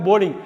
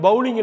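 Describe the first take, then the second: First: "போலிங்" with a long "o"; correct pronunciation. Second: "பவுலிங்" with an "ow" sound; wrong pronunciation. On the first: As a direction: say "போலிங்" as "boh-ling". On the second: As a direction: say "பவுலிங்" as "bow-ling", first part like "cow". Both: Shown as a demonstration. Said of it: "பவுலிங் இல்லைங்க, போலிங்".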